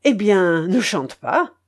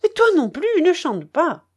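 First: Said in the usual way. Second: High, loud furious retort. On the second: Acted. Charcot throws the narrator's words back, furious and loud. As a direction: hurl the words back at him in fury. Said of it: "reprit-il d'un ton furieux".

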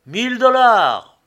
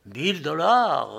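First: High, very loud drawn-out bidding shout; loud cry. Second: A hint of an auctioneer's call, slowed; auctioneer repeating. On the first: Hatter bidding at a crowded auction, loud cry. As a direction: shout the bid out across the room. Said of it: "s'était écrié d'une voix forte". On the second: Auction agent repeats the hatter's bid, measured call. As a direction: repeat the bid slowly, only moderately raised. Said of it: "répétait l'agent du contrôle". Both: A narrator's reading.

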